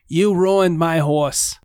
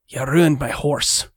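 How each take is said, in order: First: It is said without a Scottish accent. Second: It is said in a Scottish accent. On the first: It sounds like the intended character. The speaker calls it right. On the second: It sounds like a different character. The speaker calls it wrong.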